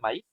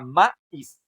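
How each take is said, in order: First: The stress falls on the 'i' part. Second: The stress falls on the 'ma' part. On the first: The speaker calls it right. "en lugar de maíz" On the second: The speaker calls it wrong. "entonces en este caso ma sería la sílaba más fuerte"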